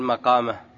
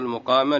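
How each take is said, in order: First: The first vowel is an 'a' sound. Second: The first vowel is a 'u' sound. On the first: The speaker calls it wrong. "لا تقول مقامه" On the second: The speaker calls it right. "مقامه بضم الميم لأنه من أقام الرباعي"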